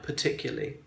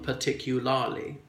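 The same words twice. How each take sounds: First: The word is said with three syllables. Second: The word is said with four syllables. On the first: "turning them into three" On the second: "would appear to have uh, four syllables"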